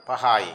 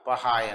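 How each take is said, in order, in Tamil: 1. சொல் 'ai' ஒலியில் முடிகிறது. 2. சொல் 'ai' ஒலியில் முடிகிறது.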